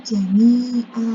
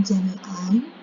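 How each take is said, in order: First: JAMI'A with a long open final "a"; lengthened stop reading. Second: JAMI'AN closed with a sounded n; tanwin reading, rejected. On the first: Teacher showing the correct stop, slow long final vowel. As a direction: draw "jami'a" out slowly, no n at the end. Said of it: "namun jami'a". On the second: Teacher showing how not to stop, n sounded. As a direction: finish "jami'an" on a short "an". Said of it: "dibacanya bukan jami'an". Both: Shown as a demonstration.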